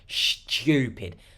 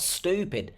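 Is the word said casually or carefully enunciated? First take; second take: enunciated; casually. First: The word is said with every sound carefully articulated. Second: The word is said casually, without careful articulation. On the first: "You see how I've enunciated the word" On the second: "not stupid"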